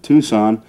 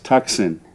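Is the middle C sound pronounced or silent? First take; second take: silent; pronounced. First: The middle C sound is silent. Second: The middle C sound is pronounced. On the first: This is how locals say the name. "we pronounce it Tucson" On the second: This shows how the name is spelled. "if you want to get the correct spelling, is Tucson"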